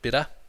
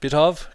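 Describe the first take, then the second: First: The two words run together as one word. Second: The two words are said separately and fully.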